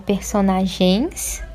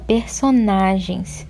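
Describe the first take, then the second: First: The stress falls on a syllable other than 'na'. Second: The stress falls on the third syllable 'na'. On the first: The speaker calls it wrong. "Não é personagens" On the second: The speaker calls it right. "a sílaba tônica é o na"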